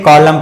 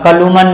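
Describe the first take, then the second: First: The word ends in m with no n. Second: An n sound is heard at the end. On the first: The speaker calls it right. "इसे कॉलम पढ़ते हैं" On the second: The speaker calls it wrong. "कलुमन नहीं पढ़ते हैं"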